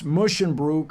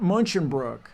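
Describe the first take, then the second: First: The first syllable is said as 'mus'. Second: The first syllable is said as 'mun'. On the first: The speaker calls it right. "It's Musschenbroek" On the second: The speaker calls it wrong. "not Munchenbroek"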